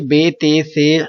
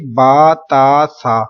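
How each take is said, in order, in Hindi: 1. हरूफ़ के नाम उर्दू लहजे में बोले जाते हैं। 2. हरूफ़ के नाम अरबी लहजे में बोले जाते हैं। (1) "उर्दू तलफ़ुज़ से परहेज करें, यानी कि बे ते से हे खे तोए जोए वगैरह हरगिज़ ना पढ़ें" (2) "बल्कि क्या पढ़ेंगे?"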